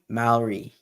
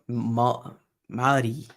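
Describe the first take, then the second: First: It is pronounced in an English-speaking accent. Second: It is pronounced the Maori-language way. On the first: "I would say it ... because my accent" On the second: "that's the to to Tereo Mari way"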